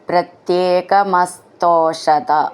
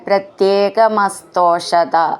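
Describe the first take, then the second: Both takes have the same delivery.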